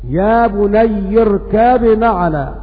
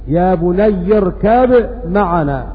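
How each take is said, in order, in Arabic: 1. تُنطق الـ b بوضوح قبل الـ m. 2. تُنطق الـ b بوضوح قبل الـ m.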